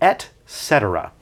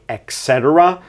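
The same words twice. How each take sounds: First: The first word is pronounced clearly as 'et'. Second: The first word is pronounced in a nonstandard way. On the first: The speaker calls it right. "but it's actually" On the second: The speaker calls it wrong. "Sometimes people mispronounce it and say"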